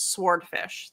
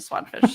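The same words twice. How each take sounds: First: The W sound is clearly pronounced. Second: The W sound is left silent. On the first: "has a silent W, which means you need to pronounce it" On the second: "which then turned into swordfish"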